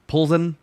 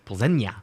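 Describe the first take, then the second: First: The name ends with a plain 'sen' sound. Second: The name ends with a soft 'nya' sound. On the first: This is how broadcasters usually say it. The speaker calls it wrong. "Everybody's been saying" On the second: This is the accurate pronunciation. The speaker calls it right. "but it's Plzeňa. Makes sense. Little teal day on the end"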